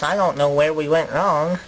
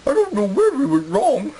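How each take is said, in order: First: Low, rueful colonist voice; regretful interviewee. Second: Higher comic colonist voice; put-on interviewee voice. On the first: Acted. Colonist tells interviewer of losing the colony, low and rueful. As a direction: puzzle over the failure, pitched low. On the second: Second interviewee laments the lost colony, high comic voice. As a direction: lament it in an odd, raised character voice.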